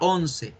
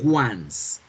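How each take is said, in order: First: It sounds like the Spanish word for eleven. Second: It sounds like the English word for one time. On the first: The speaker calls it wrong. "yo tiendo inconscientemente a pronunciar la once y no la debemos pronunciar así" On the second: The speaker calls it right. "se pronuncia once"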